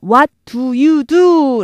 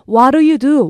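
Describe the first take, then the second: First: Each word is said separately and clearly. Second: The words run together in linked speech. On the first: The speaker calls it wrong. "라고 발음 나기보다는" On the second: The speaker calls it right. "연음 돼서요 ... 이렇게 나요"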